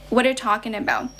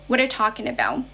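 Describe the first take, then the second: First: The words run together like one word. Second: The words run together like one word.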